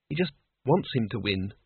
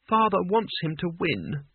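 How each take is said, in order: First: WANTS leaned on, then falling away; stress on WANTS. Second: A touch of bitterness; daughter's understated bitter remark. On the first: Isabel correcting Cutwell on her father, stressing WANTS. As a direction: set WANTS apart as the key word. Contrast with letting him win. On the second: Isabel explaining her father's wish, mildly bitter. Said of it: "said Isabel bitterly". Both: A narrator's reading.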